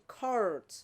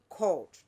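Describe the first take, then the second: First: It is said in an American accent. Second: It is said in a British RP accent. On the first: "If in America you say court" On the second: "the R P accent would say"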